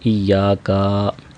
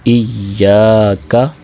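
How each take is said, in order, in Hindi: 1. आख़िरी 'ka' लंबा खींचा जाता है। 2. बीच का 'ya' लंबा खींचा जाता है। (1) "काफ को लंबा कर देते हैं, इय्याका ऐसे नहीं" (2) "या को दो सेकंड लंबा करेंगे"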